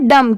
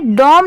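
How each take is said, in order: First: The vowel is a short, neutral 'uh' sound. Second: The vowel is a rounded 'o' sound. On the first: The speaker calls it right. "इसकी sound क्या आ रही है, डम की" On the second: The speaker calls it wrong. "D ओ M इसे डॉम नहीं pronounce करेंगे"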